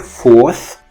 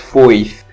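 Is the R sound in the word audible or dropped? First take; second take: dropped; audible. First: The R sound is dropped entirely. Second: The R sound is audibly pronounced. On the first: "sometimes he pronounces it as nothing" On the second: "Sometimes he says fourth"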